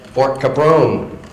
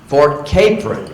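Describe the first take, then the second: First: The name's last part does not sound like 'apron'. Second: The name's last part sounds like 'apron'. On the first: The speaker calls it wrong. "I always said" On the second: The speaker calls it right. "the only way to pronounce that was like apron"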